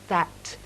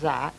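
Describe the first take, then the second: First: The final T sound is clearly pronounced. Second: The final T sound is left off. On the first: The speaker calls it right. "there's a T on it, it's that" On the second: The speaker calls it wrong. "It's not that"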